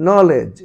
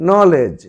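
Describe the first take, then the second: No difference in how they are said.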